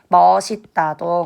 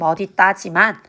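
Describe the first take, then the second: First: The middle consonant is pronounced as an s sound. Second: The middle consonant is pronounced as a d sound. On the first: This is the everyday pronunciation, also allowed. "현실 발음을 고려하여서 멋있다도 허용해 줄게" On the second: This is the standard rule pronunciation. "원칙은"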